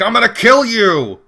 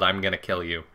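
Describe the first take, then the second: First: Loud, high hammed-up threat; mock yell. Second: Said in the usual way. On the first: Gamer imitating Dan bursting in on Faye, mock yell. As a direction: yell it like a charging game character. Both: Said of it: "I think Dan just yelled".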